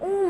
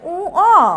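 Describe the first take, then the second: First: The name ends with an m sound. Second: The name ends with a vowel sound. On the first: The speaker calls it wrong. "আমরা অনেকেই উ ম বলি" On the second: The speaker calls it right. "এর সঠিক উচ্চারণ হচ্ছে উ অ"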